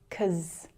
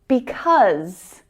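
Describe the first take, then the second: First: The first syllable is dropped, one syllable. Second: The word is said in full, two syllables.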